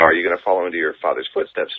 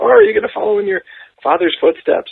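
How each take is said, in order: First: It is said in the speaker's normal voice. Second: It is said in a put-on old lady voice.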